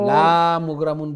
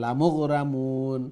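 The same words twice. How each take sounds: First: The first vowel is drawn out long. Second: The first vowel is short. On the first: The speaker calls it wrong. "বললে না হয়ে যাবে" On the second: The speaker calls it right. "লাম ওইটা শর্ট হবে"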